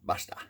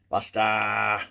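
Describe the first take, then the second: First: The vowels are short and plain. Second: The vowels are long and drawn out.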